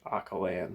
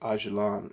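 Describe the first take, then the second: First: The name is sounded out from its spelling. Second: The name follows its heard, native-like pronunciation. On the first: "even though it says like Akalan" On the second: "I feel like I've heard it pronounced like Öcalan"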